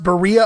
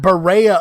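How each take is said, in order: First: The name is said in a plain, local way. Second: The name is said in a fancy, affected way. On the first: It is how local people say it. The speaker calls it right. "No, it's pronounced Berea" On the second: It sounds like outsiders trying to sound sophisticated. The speaker calls it wrong. "as you might hear on T V, ... People wanting to sound uppity and make it sound fancy"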